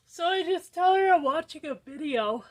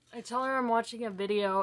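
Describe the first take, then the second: First: Suddenly loud and high, blurting it out; accidentally too loud. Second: Said in the usual way. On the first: Real, not acted.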